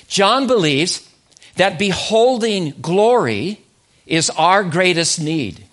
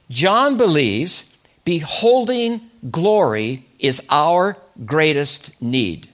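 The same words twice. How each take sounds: First: John believes, that beholding glory, is our greatest need, each phrase set apart by pauses; slow emphatic restatement. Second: Said in the usual way. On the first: Shown as a demonstration. Preacher repeating his key line so the congregation catches it, slow and emphatic. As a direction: lean on "glory" and "our", spacing out every phrase. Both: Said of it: "Say that again".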